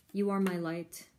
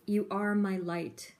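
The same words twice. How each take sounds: First: Said in the usual way. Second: Slow, heartfelt reading of the message; reading the card's words out with feeling; tender reading. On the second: Real, not acted. Reading a card message aloud.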